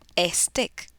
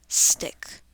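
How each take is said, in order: First: An extra e vowel comes before the s. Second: The word starts directly with the s sound. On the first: The speaker calls it wrong. "le coloquemos una E imaginaria al stick y digamos" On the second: The speaker calls it right. "decimos solo el sonido de la S"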